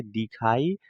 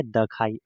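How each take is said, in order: First: दिखाई with 'i' after द; correct pronunciation. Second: दखाई with 'a' after द; misread pronunciation. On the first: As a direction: say दिखाई, 'di-khai', as the corrected reading. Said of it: "इसे पढ़ा जाता है दहर्षी का दी". (दिखाई, 'द' पर छोटी इ के साथ) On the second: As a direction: say दखाई, 'da-khai', as the mistaken reading. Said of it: "अब इसे आप अच्छे से बोलिए". (दखाई, गलत उच्चारण में 'द' पर अ) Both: Shown as a demonstration.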